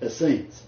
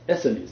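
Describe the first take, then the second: First: It does not follow the Pharisees pattern. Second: It follows the same pattern as Pharisees. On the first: The speaker calls it wrong. "not Essenes" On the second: The speaker calls it right. "It's like Pharisees, Sadducees ... It's Essenes"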